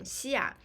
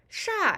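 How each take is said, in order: First: The syllable begins with an 'x' sound. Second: The syllable begins with an 'sh' sound. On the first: It is used in a city name. "Another pronunciation is xia, X I A, for fourth tone" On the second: It means a tall building. "the pronunciation is sha"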